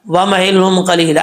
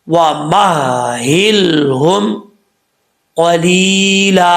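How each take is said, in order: First: The 'h' sound is blurred and not fully articulated. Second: Each letter, including the 'h', is clearly articulated. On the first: The speaker calls it wrong. "अक्सर लोग पढ़ते हैं ... ऐसे नहीं पढ़ना" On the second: The speaker calls it right. "हर हर्फ का उसका जो हक है उसको हक देंगे"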